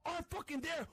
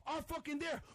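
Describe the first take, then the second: No difference in how they are said.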